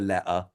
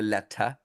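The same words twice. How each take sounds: First: The T sounds are dropped completely. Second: The T sounds are pronounced very crisply. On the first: "sometimes they ignore the letter completely" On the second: "they overpronounce the letter like that"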